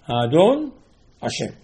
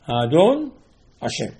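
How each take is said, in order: First: A pause separates the two words. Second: A pause separates the two words.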